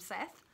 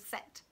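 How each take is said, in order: First: The name ends with a th sound. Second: The name ends with a plain t sound. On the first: The speaker calls it wrong. "I always thought he was called Vikram Seth. He's not" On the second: The speaker calls it right. "It's T H, but it's pronounced Set"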